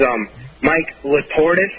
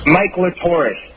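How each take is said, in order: First: Latortis said slow and drawn out; wrong name. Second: Mike Latortis with the stress on Mike; corrected name. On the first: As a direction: say Latortis slowly, stressing the middle. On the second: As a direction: say Mike Latortis slowly and clearly. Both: Shown as a demonstration. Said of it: "No, not Latortis".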